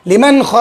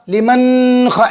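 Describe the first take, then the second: First: "लिमन ख" with a short n, straight into ख; quick plain n. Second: "लिमन ख" with a long hummed n before ख; wrong nasal hold. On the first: Teacher shows correct reading, "लिमन ख" with n unheld. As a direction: say "लिमन ख" without holding n in the nose. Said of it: "जल्दी पढ़ देंगे, आवाज़ को नाक में रोके बगैर". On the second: Teacher warns how not to recite, "लिमन ख" with n held nasally. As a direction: stretch the final n of "लिमन" through the nose, then ख. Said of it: "ऐसे नहीं पढ़ेंगे, आवाज़ को नाक में नहीं रोकेंगे". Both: Shown as a demonstration.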